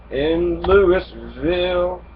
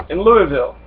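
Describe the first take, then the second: First: Louisville drawn out very slowly; a slow, deliberate Louisville; slow repeat. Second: Said in the usual way. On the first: Shown as a demonstration. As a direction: stretch out Louisville, letting it sink in.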